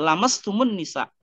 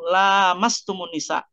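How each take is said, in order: First: The first vowel is kept short. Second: The first vowel is held long. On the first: It means touching skin with skin. "bisa dibaca pendek" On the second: It means having intercourse with women. "bisa dibaca panjang lamnya"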